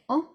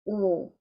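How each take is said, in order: First: The vowel is said the English way. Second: The vowel is a long French O. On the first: "in English you would say O" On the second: "but in French it's a long O"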